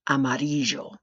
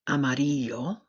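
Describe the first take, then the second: First: The double L sounds like English J. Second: The double L sounds like English Y. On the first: "sounding like a J" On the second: "sounding like the letter Y"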